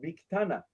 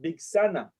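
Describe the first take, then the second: First: The middle consonant is a t sound. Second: The middle consonant is an s sound.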